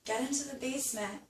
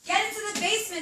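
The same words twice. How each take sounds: First: It is said in a calm, restrained voice. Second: It is yelled loudly and excitedly. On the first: The speaker calls it right. "Maybe she sounded more like this" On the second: The speaker calls it wrong. "I yelled that a little too excitedly"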